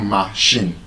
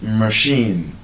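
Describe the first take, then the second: First: Machine with a full ah: MAH-shin; machine, first syllable as a clear MA; wrong first vowel. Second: Machine as muh-SHEEN, drawn out slowly; schwa in first syllable. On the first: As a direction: say machine with an open ah in front. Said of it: "the problem is now with the sound you have used". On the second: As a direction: reduce the start of machine to muh. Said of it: "The A there is not a". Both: Shown as a demonstration.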